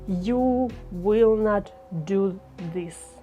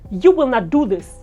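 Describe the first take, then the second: First: It is said at a slow pace. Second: It is said at a fast pace. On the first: "Let's have this slow pace" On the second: "what if you say it faster?"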